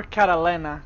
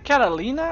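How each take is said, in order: First: Catalina said "cat-a-LEN-na"; "Catalina" pronounced to rhyme with henna. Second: Catalina said "cat-a-LEE-na"; "Catalina" pronounced to rhyme with Tina. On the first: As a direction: say Catalina with a short "eh" in the third syllable. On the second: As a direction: say Catalina with a long "ee" in the third syllable. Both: Shown as a demonstration. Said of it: "Is it Catalina or Catalina?".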